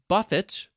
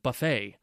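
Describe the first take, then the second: First: The final T is pronounced. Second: The final T is silent. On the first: To be hit or struck repeatedly. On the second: A meal where people serve themselves.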